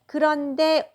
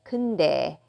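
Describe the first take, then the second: First: The word is said in full, three syllables. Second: The word is shortened to two syllables.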